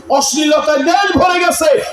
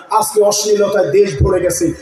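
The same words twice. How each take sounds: First: Higher, shouted second time; shouted repeat. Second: Said in the usual way. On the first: Real, not acted. Preacher to the crowd, repeated with a higher shout. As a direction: hammer the line home with a shout.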